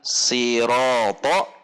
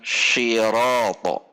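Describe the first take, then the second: First: It begins with a plain, relaxed s sound. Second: It begins with an sh sound. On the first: "bukan siroto" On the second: "atau bahkan shiroto"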